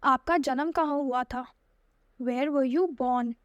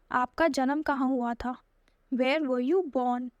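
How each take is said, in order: Both takes have the same delivery.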